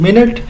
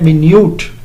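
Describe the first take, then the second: First: It sounds like 'min-it', stressed first. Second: It sounds like 'my-nyoot', stressed second. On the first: A unit of time. "इनके phones different है या pronunciation" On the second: Something very small. "ये वाला जो मिन्यूट है ये अलग word है"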